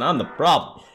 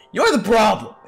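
First: Low, subdued admission; resigned self-blame. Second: Punchy, raised-voice blame; shouted accusation. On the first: Character blames themselves for everything, resigned. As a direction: drop the pitch and own the blame. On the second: Inner voice turns blame on the character, shouting. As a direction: throw the blame back with a shout. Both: Acted.

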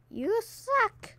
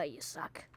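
First: High, sing-song you suck; a high, teasing jab; high taunt. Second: Low, quiet you suck; a deep, mocking jab; low taunt. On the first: Pretend. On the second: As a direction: growl it down low.

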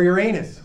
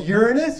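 First: "Uranus" said yur-AY-nus, second syllable stressed like anus; "Uranus" with the anus stress, deadpan; emphasis on anus. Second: "Uranus" said YUR-in-us, first syllable stressed like urine; "Uranus" with the urine stress, deadpan; emphasis on urine. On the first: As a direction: lean on the middle of "Uranus" so it lands on anus. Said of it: "with the emphasis on anus". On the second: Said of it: "with the emphasis on urine". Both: Shown as a demonstration.

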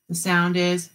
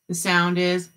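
No difference in how they are said.

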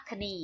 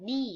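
First: "คณี" with a K syllable before the N; wrongly sounded K. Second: "นี่" starting straight on the N; silent K. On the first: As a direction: say "คณี" in two syllables, kuh-NEE. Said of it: "ไม่อ่านว่าคณี เพราะตัว K ไม่ออกเสียง". (อ่าน "คณี" แบบออกเสียง K ผิด เป็นสองพยางค์) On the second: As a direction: say "นี่" as one syllable, nee, no K. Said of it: "ตัว K ไม่ออกเสียง". (อ่าน "นี่" ไม่ออกเสียง K เริ่มที่เสียง N) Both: Shown as a demonstration.

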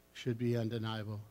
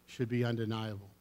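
No difference in how they are said.

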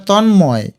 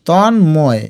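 First: Said in the usual way. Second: Tanmoy as drawn-out ton, then moy; broken in two. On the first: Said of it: "এটা Tanmoy". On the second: Shown as a demonstration. Teacher repeats it for spelling, Tanmoy in two parts. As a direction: pause between the halves of Tanmoy. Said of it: "ভেঙে ভেঙে লিখবে".

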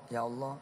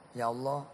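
Both takes have the same delivery.

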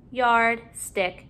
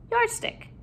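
First: "Yard, stick" as two separate words; parts apart. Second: Said in the usual way. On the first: Shown as a demonstration. Teacher putting a new syllable in, parts apart. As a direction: pause between "Yard" and "stick". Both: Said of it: "putting a new syllable in".

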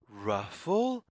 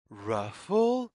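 No difference in how they are said.

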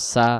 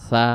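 First: "সা" with a clear whistled s; hissed sin. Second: "সা" as a soft th from the tongue tip; soft tha. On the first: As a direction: say "সা" with a sharp plain s. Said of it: "সিন এবং শিন অক্ষ-, সা অক্ষরের". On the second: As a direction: lisp "সা" gently like English th. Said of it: "জিহ্বার আগা থেকে নরম করে". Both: Shown as a demonstration.

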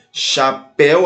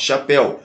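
First: "Chapéu" split, with "péu" held and raised at the end; stress on last syllable. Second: Said in the usual way. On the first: Shown as a demonstration. Teacher shows an oxytone, stress on the end of "Chapéu". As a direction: separate "Chapéu" and lean on "péu". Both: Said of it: "última sílaba é mais forte".

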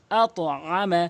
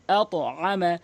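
The two takes are said the same way.

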